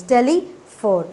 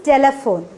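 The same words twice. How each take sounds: First: "telephone" slowed and split into syllables; slowly chunk "telephone" into parts; teacher syllabifying "telephone". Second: Said in the usual way. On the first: Shown as a demonstration. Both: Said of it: "divided telephone into two syllables".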